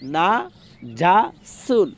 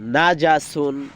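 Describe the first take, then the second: First: It is said slowly, syllable by syllable. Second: It is said quickly, syllables run together.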